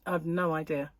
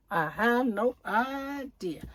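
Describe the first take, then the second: First: Said in the usual way. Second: Slow, exaggerated "have no idea", each word stretched; drawn-out repeat. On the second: Vlogger repeating herself to viewers, slow and exaggerated.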